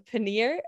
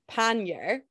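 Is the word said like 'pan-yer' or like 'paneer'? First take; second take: paneer; pan-yer. First: The word sounds like the cheese 'paneer'. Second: The word sounds like 'pan-yer' or 'pan-ee-er'. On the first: The speaker calls it wrong. "called it a pannier, which is like an Indian food" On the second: The speaker calls it right. "It's called a pannier"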